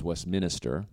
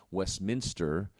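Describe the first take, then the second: First: "Westminster" with an extra syllable, like west-minister; Vermont pronunciation. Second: Said in the usual way. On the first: Shown as a demonstration. Showing a regionalism from Vermont, "Westminster" said like west-minister. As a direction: say "Westminster" as west-MIN-i-ster. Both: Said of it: "becomes Westminster".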